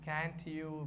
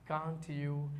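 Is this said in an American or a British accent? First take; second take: American; British. First: It is said in an American accent. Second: It is said in a British accent. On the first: "Americans pronounce it" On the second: "Britishers pronounce it"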